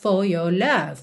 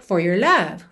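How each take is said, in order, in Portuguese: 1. Os sons de R são omitidos. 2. Os sons de R são fortemente pronunciados. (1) "o British English marcando presença" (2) "Enrolando mesmo a língua"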